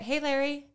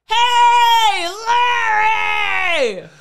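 First: It is said calmly, at normal loudness. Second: It is screamed loudly, like a cornfield shout.

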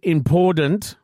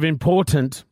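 First: The middle T is sounded like a D. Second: The middle T is sounded as a clear T. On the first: The speaker calls it wrong. "says the word important instead of important" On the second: The speaker calls it right. "It seems that all words with the letter T in them become a D"

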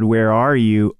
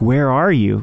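First: It sounds angry, like a stern cop. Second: It sounds warm and loving, like gentle concern.

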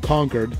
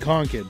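First: The second syllable sounds like 'kurd', as in conquered. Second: The second syllable sounds like 'kid', reduced and short. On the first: "C-O-N-Q-U-E-R-E-D, like Concord" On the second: "But then there's C-O-N-K-I-D"

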